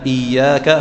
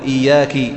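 First: The word ends in a. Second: The word ends in i. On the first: The speaker calls it right. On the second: The speaker calls it wrong.

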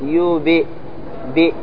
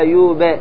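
First: The echo after the b leans toward 'i'. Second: The echo after the b does not lean toward 'i'. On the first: The speaker calls it right. "على حسب الكسرة تقول يوب" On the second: The speaker calls it wrong. "أنا ما قلت يوب ولا يوب"

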